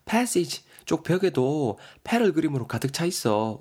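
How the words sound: It is spoken in a put-on feminine voice.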